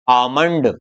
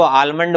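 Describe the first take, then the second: First: आमंड with no L, long first vowel; silent L. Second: आलमंड with an audible L before M; L wrongly sounded. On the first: Teacher models the correct word, आमंड without any L. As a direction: say आमंड gliding straight from vowel to M. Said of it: "इसको बोलेंगे". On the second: Teacher shows the common mistake, आलमंड with L spoken. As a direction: say आलमंड pronouncing the L. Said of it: "इसको आलमंड नहीं बोलेंगे". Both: Shown as a demonstration.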